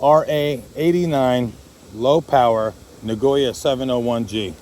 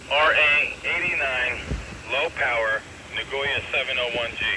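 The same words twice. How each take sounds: First: Said in the usual way. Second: Heard through a radio; as if over a handheld radio; over walkie talkie. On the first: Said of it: "radio test". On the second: Shown as a demonstration. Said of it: "radio test over the air".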